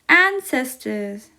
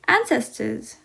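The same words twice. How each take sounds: First: It is said at normal speed. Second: It is said faster.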